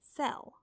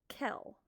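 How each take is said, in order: First: The word begins with an S sound. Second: The word begins with a K sound. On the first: The speaker calls it right. "when you see C E together, it makes the S" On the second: The speaker calls it wrong. "They make it the C a k sound"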